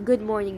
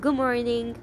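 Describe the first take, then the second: First: The final D of good is pronounced. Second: The final D of good is dropped. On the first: "We don't always say good morning" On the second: "we say good morning. So we forget the last D in good"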